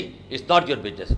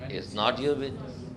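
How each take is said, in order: First: It is said in an angry, irritated tone. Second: It is said in a gentle, friendly tone. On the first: "आप उसे गुस्से से बोलते हैं" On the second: "बड़े प्यार से बुलवाए"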